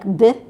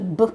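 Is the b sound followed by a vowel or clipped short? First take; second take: vowel added; clipped. First: The b sound has a vowel added after it. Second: The b sound is clipped short with no vowel. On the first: The speaker calls it wrong. "They add a vowel sound after it, like b" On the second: The speaker calls it right. "it's just a b"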